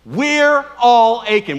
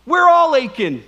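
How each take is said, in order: First: Slow, loud, drawn out with the crowd; call and response. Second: Loud proclaimed line, stress on We're; preacher's lead line. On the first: Preacher chants the refrain together with the congregation, slow and loud. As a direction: stretch every word as they chant along. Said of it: "say it with me". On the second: Preacher models the refrain before the congregation joins, loud and emphatic. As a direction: set up the refrain before they join. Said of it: "let's say it, say it with me". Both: Shown as a demonstration.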